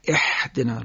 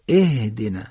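First: The first consonant is harsh and throaty. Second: The first consonant is light and breathy. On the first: The speaker calls it wrong. "بعضی میگن اح، لزوم نداره با این غلظت بگیم" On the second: The speaker calls it right. "باید ساده بگیم"

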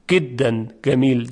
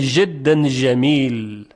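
First: The jim sounds are pronounced as a hard g. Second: The jim sounds are pronounced as zh. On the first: "در لهجه مصری جیم اصلا گاف تلفظ میشه" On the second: "در سوریه به جای اینکه جیم بگن ژ میگن"

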